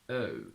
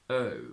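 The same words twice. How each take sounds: First: The vowel starts with flat lips and a schwa. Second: The same.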